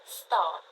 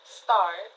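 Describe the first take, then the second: First: The r after the vowel is silent. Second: The r after the vowel is pronounced.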